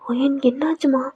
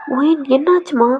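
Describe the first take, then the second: First: Said in the usual way. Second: Slower and more pressing; worried mother repeating through the door; insistent repeat. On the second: Acted. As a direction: ask again, not letting it go. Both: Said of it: "தட்டிக்கிட்டே இருக்காங்க".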